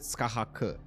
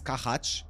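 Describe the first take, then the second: First: The name ends with a hard k sound. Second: The name ends with a soft ch sound. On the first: "K? Is it a K?" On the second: "Is it um with a C H?"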